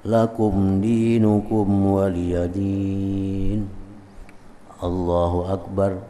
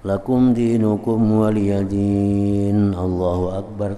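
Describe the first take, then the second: First: There is a pause before Allahu Akbar. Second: Allahu Akbar follows directly with no pause. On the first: The speaker calls it right. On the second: The speaker calls it wrong.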